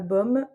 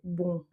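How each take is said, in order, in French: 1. La voyelle finit par une consonne bien prononcée. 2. La voyelle est nasale, sans consonne finale. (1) "C'est pas bom" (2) "c'est bon. Pour nous, c'est comme bonbon"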